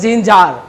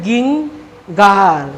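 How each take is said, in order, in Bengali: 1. শব্দটি J উচ্চারণ দিয়ে শুরু হয়। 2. শব্দটি হার্ড G উচ্চারণ দিয়ে শুরু হয়। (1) "অর্থাৎ উচ্চারণ হবে জিঞ্জার" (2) "যে বুঝবে না উচ্চারণের এই নিয়ম, সে বলবে হচ্ছে গিঙ্গার"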